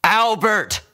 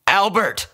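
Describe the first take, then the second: First: Urgent call. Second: Loud, much higher call across the clinic. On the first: Vet calls again. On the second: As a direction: call for help from the front desk. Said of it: "he called to the man". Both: A narrator's reading.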